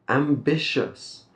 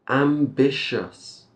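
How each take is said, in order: Both takes have the same delivery.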